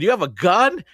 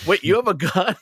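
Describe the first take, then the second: First: High, loud stunned question; shocked. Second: High, loud startled question; the character can't believe it; shocked. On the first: Player retelling her reaction to the gun, shocked. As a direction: blurt it out in disbelief. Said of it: "I was shocked". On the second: Conductor character learns passenger has a gun, shocked. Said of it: "my character was shocked". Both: Retold or imitated.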